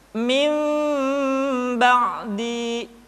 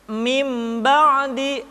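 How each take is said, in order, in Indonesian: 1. Mim-nya samar, dengan kedua bibir sedikit renggang. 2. Mim-nya penuh, dengan kedua bibir tertutup rapat. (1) "kedua bibir kita agak sedikit direnggangkan, tidak sempurna rapat" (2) "tidak dibaca mim ba'di atau mim dengan menyempurnakan mim"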